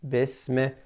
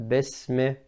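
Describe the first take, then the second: The two takes are said the same way.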